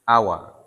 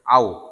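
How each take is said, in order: First: The w is followed by a short a vowel. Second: The w ends the syllable with no vowel. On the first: "jumhur ulama membaca huruf waw dengan uh, harokat fathah" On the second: "Nafi' membaca dengan sukun waw"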